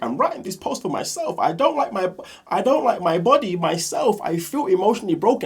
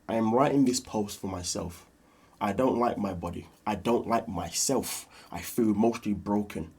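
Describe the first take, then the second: First: It is read in an unsympathetic, mocking tone. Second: It is read in a gentle, sympathetic tone.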